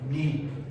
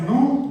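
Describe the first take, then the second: First: The vowel is ee said with rounded lips. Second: The vowel is a plain oo sound. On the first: The speaker calls it right. "la boca en forma de U, pero con el sonido de la I" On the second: The speaker calls it wrong. "No es Nu"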